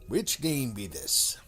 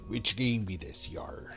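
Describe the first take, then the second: First: It is said in his normal voice. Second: It is said in a put-on pirate voice.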